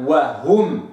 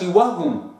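First: وهم with the waw fully articulated; correct demo. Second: وهم said the wrong way; wrong reading. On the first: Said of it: "وإنما". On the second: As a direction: read وهم wrongly for contrast. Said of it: "ما اقرأش". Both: Shown as a demonstration.

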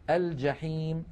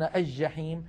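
First: الجحيم said al-jaḥīm, with clear l; pronounced lam. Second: الجحيم said aj-jaḥīm, l dropped; assimilated jim. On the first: Shown as a demonstration. Teacher showing classical usage, الجحيم as al-jaḥīm. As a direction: sound the l before j in الجحيم. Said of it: "الفصحى أن نقول". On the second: Retold or imitated. Teacher quoting a common error, الجحيم as aj-jaḥīm. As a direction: double the j in الجحيم, no l. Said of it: "هذا لا يصح".

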